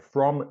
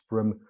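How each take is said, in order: First: The word is said with a full vowel. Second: The word is said with a reduced vowel.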